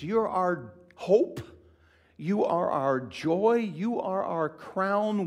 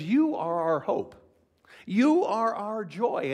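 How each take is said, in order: First: High, loud, slow stress on each line; slow ringing emphasis; slow emphatic list. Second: Loud, high and slow; ringing slow proclamation; Paul's fervent declaration. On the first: Shown as a demonstration. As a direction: lean on hope, joy, crown slowly. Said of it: "notice where he puts all these". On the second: Acted. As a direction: proclaim it with delight. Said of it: "He says".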